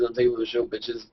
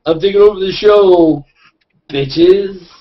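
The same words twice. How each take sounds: First: Softer, offhand delivery, dropping away; understated announcement fading at the end. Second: Loud, higher-pitched mock takeover; belted-out cocky announcement; brash takeover announcement. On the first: Acted. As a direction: toss it off softly, trailing down. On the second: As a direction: announce it big and high, like seizing the show. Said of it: "I'll just have Brian McDonald go like".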